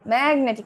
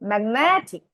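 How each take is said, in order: First: The stress is not on the second-to-last syllable. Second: The stress is on the second-to-last syllable. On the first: The speaker calls it wrong. "Magnetic না কিন্তু" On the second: The speaker calls it right. "Penultimate সিলেবলে stress দিলাম"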